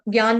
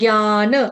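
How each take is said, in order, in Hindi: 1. शब्द कटे हुए बिना स्वर वाले 'n' पर खत्म होता है। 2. अंतिम 'n' को स्वर के साथ पूरी तरह बोला जाता है। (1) "ज्ञान नहीं" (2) "ज्ञान पूरा ऐसे पढ़ेंगे"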